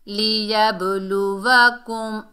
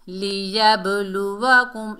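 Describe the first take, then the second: No difference in how they are said.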